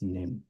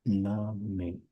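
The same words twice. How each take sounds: First: The final e is silent, one syllable. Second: The final e is sounded as a syllable. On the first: The speaker calls it wrong. "not name. That's the difference between German and English" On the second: The speaker calls it right. "you try to pronounce like every word. So that's why it is Name"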